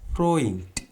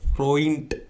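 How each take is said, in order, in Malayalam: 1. അവസാന വ്യഞ്ജനം ശബ്ദമില്ലാത്ത t ശബ്ദമാണ്. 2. അവസാന വ്യഞ്ജനം ശബ്ദമുള്ള d ശബ്ദമാണ്. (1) "ടി ആയിട്ടാണ് അതിനെ ഉച്ചരിക്കേണ്ടത്" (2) "ഫ്രോയിൻറ്റ് എന്നല്ല"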